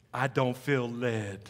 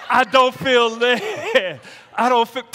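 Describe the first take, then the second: First: Low, slow, hushed mock excuse; mock pious excuse. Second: Loud, high, drawn-out "I don't feel led"; mock excuse shout. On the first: Preacher imitating a believer dodging service, slow mock pious excuse. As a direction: softly draw out "I don't feel led". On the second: Preacher crowing a believer's excuse for dodging service, mock shout. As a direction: holler the pious excuse for comic effect.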